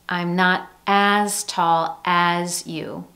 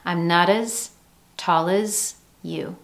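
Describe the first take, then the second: First: Each "as" has a full, clear vowel. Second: Each "as" is reduced to a schwa. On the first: The speaker calls it wrong. "You don't hear" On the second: The speaker calls it right. "Instead, we have that schwa sound"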